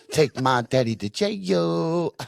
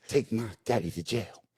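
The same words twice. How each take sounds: First: Put-on high, slow, laughing kid's chant; laughing child chant. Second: Put-on quiet kid repeat. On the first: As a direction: sing it out like a gleeful five-year-old. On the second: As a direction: repeat it softer like a child. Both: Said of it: "just keeps hammering this out".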